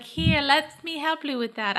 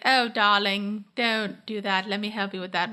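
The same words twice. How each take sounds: First: Higher, slow, shaky stab at posh British; badly faked British accent, sweetly helpful; attempted British accent. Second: Posh British imitation, starting slow; Rachel, posh British accent. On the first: Podcaster imitates character offering help, failed British accent. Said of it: "I can't do her accent". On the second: Podcaster imitates character offering help, posh British accent. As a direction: put on a posh British "darling" voice. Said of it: "like, a posh British accent".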